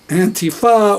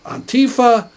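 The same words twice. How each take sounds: First: The word is said in the speaker's usual way. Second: The word is said mimicking another person's pronunciation.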